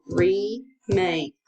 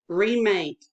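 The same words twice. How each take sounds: First: "Remake" split into re, pause, make; syllable by syllable. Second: Said in the usual way. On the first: Shown as a demonstration. Teacher dictating to a pupil, "Remake" syllable by syllable. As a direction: pound out "Remake" slowly as two separate beats. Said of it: "Ready, pound". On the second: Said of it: "pounder ready".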